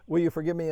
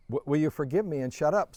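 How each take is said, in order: First: "Will you forgive me?" said alone, then a clear stop; stop after forgive me. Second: "will you forgive me and shut up" said in one run with no pause; joined to shut up. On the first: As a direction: ask "Will you forgive me?" and let it end there. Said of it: "You say". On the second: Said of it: "no, you don't say shut up". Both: Shown as a demonstration.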